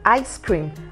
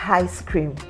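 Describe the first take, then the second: First: The word starts directly with the vowel. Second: The word starts with an h sound. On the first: The speaker calls it right. "you have I as an ice cream" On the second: The speaker calls it wrong. "and not ice cream"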